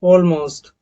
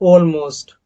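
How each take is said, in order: The two takes are said the same way.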